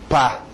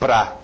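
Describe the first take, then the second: First: Only one short syllable with one vowel remains. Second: The first vowel is dropped into one syllable. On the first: "ou até um pá" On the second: "eu estou falando pra"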